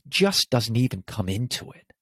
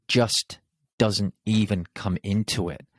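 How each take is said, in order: First: Said in the usual way. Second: Just, a pause, then doesn't even come into it falling; pause after just. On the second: Shown as a demonstration. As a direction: set Just apart, let the rest fall. Repeats key phrase with pause.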